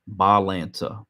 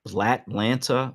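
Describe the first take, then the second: First: The name begins with a 'ba' sound. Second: The name begins with a 'bla' sound. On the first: The speaker calls it right. "it's not B L A. It's Balanta" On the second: The speaker calls it wrong. "is how I'm going to pronounce it"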